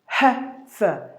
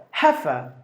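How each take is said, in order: First: Slowly broken-up British "heifer"; first-syllable stress, split. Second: "heifer" as one lower, falling HEH-fuh; low British "heifer", weight on the first syllable; first-syllable stress, joined. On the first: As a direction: say "heifer" in two spaced beats, weight on the first. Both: Shown as a demonstration. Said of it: "first syllable is given more volume".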